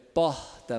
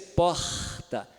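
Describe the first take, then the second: First: The r is a softer, breathy sound. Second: The r is a stronger, harsher sound. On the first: The speaker calls it right. "é porta, mais suave" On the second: The speaker calls it wrong. "não chega a ser porta"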